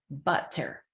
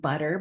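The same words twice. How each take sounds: First: The middle t is a crisp, clear t. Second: The middle t is a soft flap, like d. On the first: "Say the word correctly" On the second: "B U D E R"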